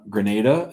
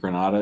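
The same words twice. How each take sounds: First: Grenada with a long ay, gre-NAY-da; Grenada as said first. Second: Granada with an open ah, gre-NAH-da; corrected Granada. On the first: Real, not acted. Host reading a viewer's place, saying gre-NAY-da. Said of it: "I said Grenada". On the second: Shown as a demonstration. Host checking his pronunciation, trying gre-NAH-da. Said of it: "Did I say that wrong?".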